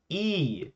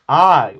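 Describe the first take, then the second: First: The letter name has Swedish pronunciation. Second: The letter name has English pronunciation.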